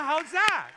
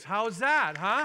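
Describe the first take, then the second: First: Much higher and louder than the first "How's that"; real preacher's full shout; triumphant shout. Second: Loud, high challenge to the room; real preacher's rising glee; rousing. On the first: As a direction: shout it again, bigger, to bring the room up. Repeat, bigger, to stir the church. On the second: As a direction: toss the question out to stir the crowd. Rousing congregation after good news. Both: Real, not acted.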